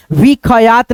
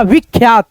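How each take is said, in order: First: विखयात as vi-kha-yaat, three syllables; split-letter misreading. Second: विख्यात as vikh-yaat, two syllables; ख closed straight onto यात in विख्यात; joined kh-y. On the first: Teacher warning how not to read it, विखयात split apart. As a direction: add a vowel after ख in विखयात. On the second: Teacher giving the correct reading, विख्यात joined. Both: Shown as a demonstration. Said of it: "नहीं पढ़िएगा".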